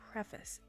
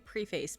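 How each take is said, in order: First: It is said in the usual standard pronunciation. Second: It is sounded out just as it is spelled. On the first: The speaker calls it right. "but I think it's preface" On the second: The speaker calls it wrong. "I always say preface because I'm dyslexic and used to sounding words out"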